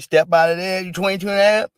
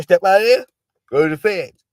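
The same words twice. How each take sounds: First: Louder, raised commanding call; mock judge calling him out; mock judge order. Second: Loud, higher command; louder mock judge repeat; mock judge order. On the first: Acting judge ordering Chauvin out. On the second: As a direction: shout him off to the feds. Acting judge ordering Chauvin out again.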